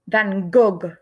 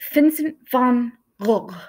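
First: The name is pronounced the French way. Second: The name is pronounced the Dutch way, throaty. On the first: This is how people in France said it. The speaker calls it wrong. "In France, people called him" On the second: This is how the artist said his own name. The speaker calls it right. "the correct way to say his name"

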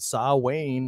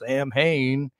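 First: The word is said unlike its spelling. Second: The word is said just as spelled. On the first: This is the pronunciation that others insist on. "why would I even think to pronounce it Samhain" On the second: This is how the spelling suggests it is read. "when it's Samhain? ... it's spelled Samhain"

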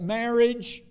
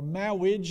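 First: The word is said with a clear r sound. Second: The word is said without its r sounds.

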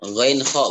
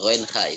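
First: The word ends in a rounded 'o' vowel. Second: The word ends in an open 'a' vowel. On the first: The speaker calls it right. "Ghoinho, bukan ghoinha" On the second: The speaker calls it wrong. "bukan ghoinha"

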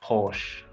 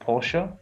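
First: The name is said the way Australians say it. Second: The name is said the way Europeans say it. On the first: "in Australia they call it Porsche" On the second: "in Europe and maybe in the US they call it Porsche"

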